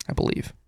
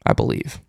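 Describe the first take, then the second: First: Quiet voiced murmur, trailing off; soft repeat. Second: Breathy whisper, half to himself; whispered aside. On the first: Host repeats his guess, quietly voiced. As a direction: say it again, low and voiced. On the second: Host mutters over grim stats, in a whisper. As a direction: barely voice the words, a private doubt. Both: Real, not acted.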